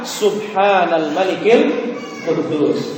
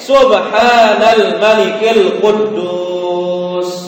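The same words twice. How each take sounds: First: It is said in a quiet voice. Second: It is said in the loudest voice.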